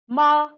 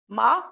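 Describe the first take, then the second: First: The pitch stays high and level. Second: The pitch rises from mid to high. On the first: "first tone is high level pitch" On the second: "high rising pitch"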